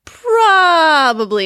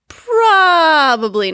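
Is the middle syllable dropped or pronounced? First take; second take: pronounced; pronounced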